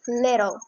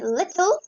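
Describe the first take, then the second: First: The middle T is a soft D sound. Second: The middle T is a crisp T sound.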